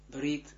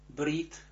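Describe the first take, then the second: No difference in how they are said.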